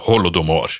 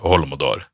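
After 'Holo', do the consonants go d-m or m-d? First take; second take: d-m; m-d. First: The consonants after 'Holo' are d then m. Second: The consonants after 'Holo' are m then d. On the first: The speaker calls it right. "Men det heter Holodomor" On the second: The speaker calls it wrong. "Men det heter ikke Holomodor"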